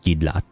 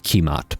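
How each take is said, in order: First: The name begins with a G sound. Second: The name begins with a K sound. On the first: The speaker calls it right. "It's pronounced like Gidlat when I looked it up" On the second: The speaker calls it wrong. "It's not Kimat, by the way. It's just spelled that way"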